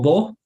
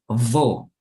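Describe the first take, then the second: First: The V is soft, close to a B. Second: The V is buzzed, close to an F. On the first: The speaker calls it wrong. "no digo vo" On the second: The speaker calls it right. "digo vo"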